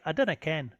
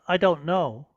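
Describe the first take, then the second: First: It is said in a Scottish accent. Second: It is said in a plain English accent.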